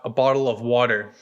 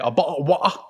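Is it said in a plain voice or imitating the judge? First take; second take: plain voice; imitating judge. First: It is said in the speaker's plain voice. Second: It is said imitating the judge's voice.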